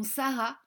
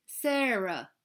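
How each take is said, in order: First: Said in the usual way. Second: "Sarah" said the English way; English-style "Sarah"; English pronunciation. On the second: Shown as a demonstration. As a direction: say "Sarah" with English vowels, not French. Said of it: "se prononçait Sarah".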